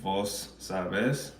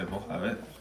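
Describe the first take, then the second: First: The S sounds are pronounced fully. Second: The S sounds are aspirated like an h. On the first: "instead of saying" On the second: "they aspirate S's, but not just the S's on the end, the original S too"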